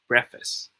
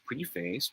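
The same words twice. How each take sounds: First: It is said the standard way. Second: It is said the common Filipino way. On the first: The speaker calls it right. "whereas it should be pronounced as preface" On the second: The speaker calls it wrong. "we thought that it's pronounced as preface"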